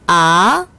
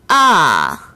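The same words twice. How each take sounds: First: The pitch rises from mid to high. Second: The pitch falls sharply from high to low. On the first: "제이성" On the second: "제사성"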